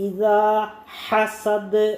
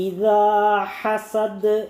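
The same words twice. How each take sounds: The two takes are said the same way.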